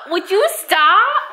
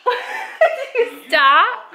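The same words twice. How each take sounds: First: High, slow, laughing through it; half-laughing plea to stop; laughing protest. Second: Said in the usual way. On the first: Real, not acted. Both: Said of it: "Don't pull my hair".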